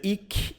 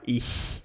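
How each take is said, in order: First: The ch is not a soft hiss. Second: The ch is a soft breathy hiss. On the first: The speaker calls it wrong. "Você talvez vai dizer ich" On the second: The speaker calls it right. "mas não vai falar ich"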